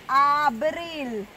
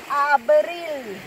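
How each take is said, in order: No difference in how they are said.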